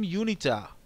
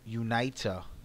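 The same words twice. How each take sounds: First: The name is said in a Latin style. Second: The name is said in an American style. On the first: "the traditional Latin pronunciation" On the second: "Americanized version"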